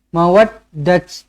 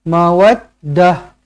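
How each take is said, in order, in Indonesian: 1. Kata ini berakhir dengan bunyi t. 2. Kata ini berakhir dengan bunyi h. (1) "jangan mawaddat ... tak boleh" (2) "Kita kena tukarkan ta marbutah ini menjadi huruf ha"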